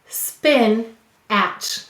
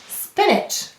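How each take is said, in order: First: The second syllable has a full, clear vowel. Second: The second syllable has a weak, reduced vowel. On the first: It is said this way to help with spelling. "We will say to spell spin-atch" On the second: It is the normal way to say the word. "you hear a schwa or a lazy vowel in that second syllable"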